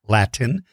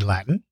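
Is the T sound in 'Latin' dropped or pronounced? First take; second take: pronounced; dropped. First: The T in the middle is clearly pronounced. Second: The T in the middle is not pronounced. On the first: "the correct pronunciation is Latin" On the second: "I never do pronounce the T. I say Latin"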